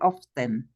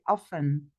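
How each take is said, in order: First: The word is said with a pronounced T. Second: The word is said with a silent T. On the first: The speaker calls it wrong. "We don't say often" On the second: The speaker calls it right. "we don't pronounce the T, we say often"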